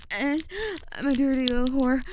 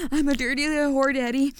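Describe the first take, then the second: First: Said in the usual way. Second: Fast, louder rushed line; louder and faster. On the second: Shown as a demonstration. Told to say it faster, a rushed louder line. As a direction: rattle it off faster on command. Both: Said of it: "say it louder and faster".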